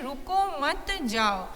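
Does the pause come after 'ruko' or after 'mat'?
after mat. There is a pause after the second word. Do not stop, keep going. "यानी रुकना नहीं है, आगे जाना है"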